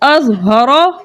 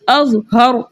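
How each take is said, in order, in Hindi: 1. शब्द छोटे स्वर पर ख़त्म होता है। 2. शब्द व्यंजन पर ख़त्म होता है।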